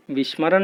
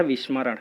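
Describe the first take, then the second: First: विस्मरण said with sh, as vishmaran; the wrong version of विस्मरण, with a sh sound; विस्मरण as the mistake, with sh in the middle; wrong form. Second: विस्मरण said with a clean s, as vismaran; the correct version of विस्मरण, with a clear s; विस्मरण as the correct form, with s in the middle. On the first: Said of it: "विस्मरण नहीं होता है". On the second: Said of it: "शुद्ध शब्द होता है विस्मरण". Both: Shown as a demonstration.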